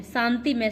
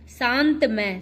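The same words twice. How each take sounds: First: शांति with final i; correct form. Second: शांत with no final i; wrong form. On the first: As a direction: say शांति as shaan-ti. (सही उच्चारण, शांति) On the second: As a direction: end शांत on the t. (गलत उच्चारण, शांत) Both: Shown as a demonstration. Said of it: "शांति में शुद्ध".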